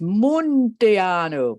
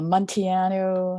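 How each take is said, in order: First: The name ends in an 'oo' vowel. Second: The name ends in an 'oh' vowel. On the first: The speaker calls it right. "It's really supposed to be pronounced Munteanu" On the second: The speaker calls it wrong. "I'm mispronouncing it"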